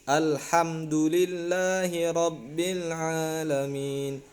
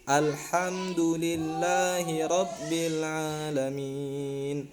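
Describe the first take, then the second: The two takes are said the same way.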